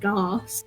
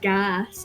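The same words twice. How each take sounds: First: The vowel is a long, broad 'ar' sound. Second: The vowel is a short, flat 'a' sound. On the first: The speaker calls it wrong. "let's substitute the R sound into every A sound there is" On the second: The speaker calls it right. "instead of saying gas"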